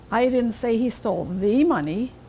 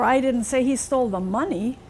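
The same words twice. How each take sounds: First: The word 'the' carries the main stress. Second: The word 'money' carries the main stress. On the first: He took different money. "Maybe some other money he stole. Not that one" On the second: He took something other than money.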